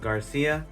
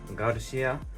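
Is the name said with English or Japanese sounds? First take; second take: English; Japanese. First: The name is said with English sounds. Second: The name is said with Japanese sounds. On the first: "my last name is Garcia" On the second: "Japanese pronunciation is Garushia"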